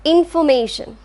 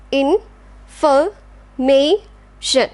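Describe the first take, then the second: First: Said in the usual way. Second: In-for-ma-tion, very slow separate beats; syllable by syllable. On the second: Shown as a demonstration. Teacher slowly splitting information for class. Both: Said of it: "Last one".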